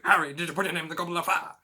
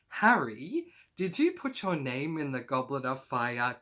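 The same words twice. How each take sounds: First: It is yelled angrily and loudly. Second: It is said calmly and quietly.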